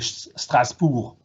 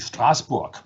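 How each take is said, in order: First: The name is pronounced the French way. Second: The name is pronounced the German way. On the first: "of course I should say Strasbourg" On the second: "which is the German pronunciation"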